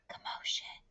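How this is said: It is said in a soft whisper. "in a whisper voice"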